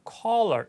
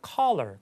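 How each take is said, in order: First: The first vowel is a rounded 'aw' sound. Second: The first vowel is an open 'ah' sound. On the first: "caller, caller 이렇게 할 수도 있지만" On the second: "그냥 caller 거의 칼라에 가깝게 발음할 수 있습니다"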